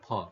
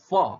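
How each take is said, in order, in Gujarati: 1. f નો અવાજ બંને હોઠ ભેગા કરીને થાય છે. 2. f નો અવાજ હોઠ અને ઉપલા દાંતથી થાય છે. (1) "નહીં કે ફ" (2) "લેબિયોડેન્ટલ ફ એવું બોલાય"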